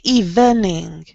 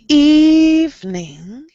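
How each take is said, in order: First: The middle vowel is pronounced, giving three syllables. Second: The middle vowel is dropped, giving two syllables. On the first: The speaker calls it wrong. "We don't say evening" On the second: The speaker calls it right. "We do not pronounce this E. ... We say evening"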